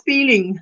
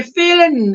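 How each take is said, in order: First: Said in the usual way. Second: FEELING said as feelin', with no final G; FEELING ending in a drawn-out plain N; Texan dropped G. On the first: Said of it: "instead of feeling". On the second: Shown as a demonstration. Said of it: "I'm a Texan now".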